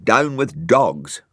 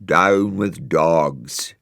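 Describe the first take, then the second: First: Innocent slow repeat. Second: Very slow, drawn-out tree protest; a hint of spooky tree voices; trees grumbling. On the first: Acted. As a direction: say it all innocent. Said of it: "said Brian innocently". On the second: A narrator's reading. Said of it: "trees stop crying".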